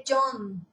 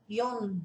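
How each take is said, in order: First: "John" said the English way; "John" as an English speaker says it; "John" em inglês; English pronunciation. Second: "Jon" with a Norwegian O leaning toward I; "Jon" em norueguês; Norwegian pronunciation. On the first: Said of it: "que em inglês é John". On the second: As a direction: Norwegian "Jon", not the English name. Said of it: "Tem um pouquinho de som do O". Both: Shown as a demonstration.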